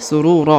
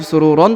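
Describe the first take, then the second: First: The word ends on a long open vowel. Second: The word ends with a final 'n' sound. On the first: This is the form used when stopping at the verse end. The speaker calls it right. "tapi surura ya, karena sudah berada di ujung ayat" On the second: This is the form used mid-verse, not at a stop. The speaker calls it wrong. "bukan lagi sururon"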